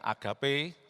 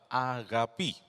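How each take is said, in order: First: The word ends with an 'eh' vowel sound. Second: The word ends with an 'ee' vowel sound. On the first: This is the popular way people say it. The speaker calls it wrong. "populernya dikatakan" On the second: This is the correct reading. The speaker calls it right. "cara baca yang benar"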